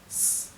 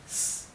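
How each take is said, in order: Both takes have the same delivery.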